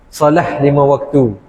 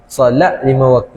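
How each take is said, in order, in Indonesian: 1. Kata pertama berakhir dengan bunyi h yang lembut. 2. Kata pertama berakhir dengan bunyi t yang jelas. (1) "tapi kita Indonesia solah" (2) "Tapi kita panggil solat lima waktu"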